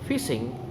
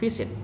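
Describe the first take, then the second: First: The word ends with an ng sound. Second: The word ends with an n sound.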